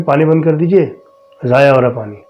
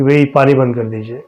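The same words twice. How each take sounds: First: A mild raised call; calls up again, a bit more insistent; calling louder. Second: Said in the usual way. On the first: Retold or imitated. Husband calls up to his wife to turn off the water, mildly raised call. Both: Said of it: "پھر میں نے زور سے کہا".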